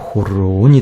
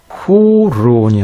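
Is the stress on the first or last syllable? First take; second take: last; first. First: The stress is on the last syllable. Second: The stress is not on the last syllable. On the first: The speaker calls it right. "제일 말음절에 강세가 온다고 했죠" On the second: The speaker calls it wrong. "호론이 아니라"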